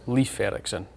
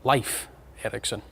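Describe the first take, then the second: First: The name is said with anglicized sounds. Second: The name is said with Icelandic sounds. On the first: "I would pronounce it" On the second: "I'm assured with my Icelandic colleagues that this should be"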